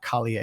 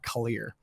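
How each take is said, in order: First: The name is said in a French-sounding way. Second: The name is said in a plain English way. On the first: The speaker calls it wrong. "not Collier. It's not French" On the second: The speaker calls it right. "It's Jack Collier"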